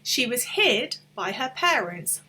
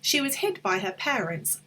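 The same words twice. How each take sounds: First: It is said slowly, with words kept apart. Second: It is said fast, with words running together.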